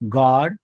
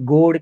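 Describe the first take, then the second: First: The vowel is an open 'aw' sound. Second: The vowel is a rounded 'oh' sound. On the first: The speaker calls it right. "आ" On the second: The speaker calls it wrong. "इथे गोड किंवा डोग नाही म्हणत आपण"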